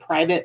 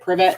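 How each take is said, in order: First: The first vowel is long, like 'eye'. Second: The first vowel is short, like 'ih'. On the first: "he's supposed to be pronounced as private" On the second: "even though it's spelled privet"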